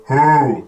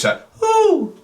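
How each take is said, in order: First: "whoo" in the normal low voice, louder; a flat hoot no owl would make; wrong low hoot. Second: "whoo" much higher in falsetto; high owl hoot. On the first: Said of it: "no owl would go". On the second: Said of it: "deliberately going for that higher pitch". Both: Shown as a demonstration.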